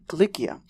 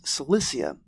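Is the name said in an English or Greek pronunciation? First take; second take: Greek; English. First: The name is said in a Greek pronunciation. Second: The name is said in an English pronunciation.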